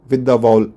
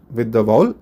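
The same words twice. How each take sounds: The two takes are said the same way.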